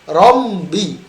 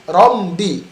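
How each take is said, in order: Both takes have the same delivery.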